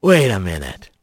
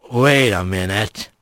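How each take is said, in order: First: Much lower, slurred and dopey. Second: Much lower, slurred, suspicious. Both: A narrator's reading. Stoned Bobcat speaks.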